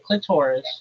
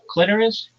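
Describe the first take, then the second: First: The word is said to rhyme with thesaurus. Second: The word is said to rhyme with Icarus. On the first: The speaker calls it wrong. "It doesn't rhyme with thesaurus" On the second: The speaker calls it right. "It rhymes with almost like Icarus"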